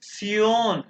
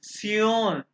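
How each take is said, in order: The two takes are said the same way.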